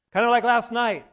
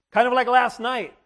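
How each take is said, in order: Both takes have the same delivery.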